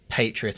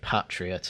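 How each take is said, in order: First: The word is pronounced the American way. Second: The word is pronounced the British way. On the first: The speaker calls it wrong. "I bet he'd say patriot" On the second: The speaker calls it right. "instead of patriot"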